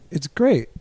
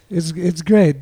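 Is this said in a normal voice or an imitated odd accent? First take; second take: normal voice; imitated accent. First: It is said in the speaker's own normal voice. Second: It is said in an imitated, bizarre foreign accent.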